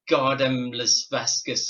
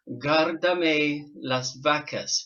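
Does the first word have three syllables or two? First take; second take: two; three. First: The first word is said with two syllables. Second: The first word is said with three syllables. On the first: The speaker calls it wrong. "I was looking at it as Gardem Las Vasquez, or I couldn't say it" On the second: The speaker calls it right. "she taught me how to say it properly"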